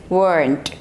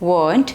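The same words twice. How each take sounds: First: It has an American accent with a sounded R. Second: It has a British accent with a silent R. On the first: "in American English it is weren't" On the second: "in British English it is weren't"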